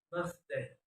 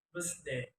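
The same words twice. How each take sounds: First: Said in the usual way. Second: "birthday" with s for th; learner's mispronunciation. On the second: Shown as a demonstration. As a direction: say "birthday" as "birsday". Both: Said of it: "is pronounced".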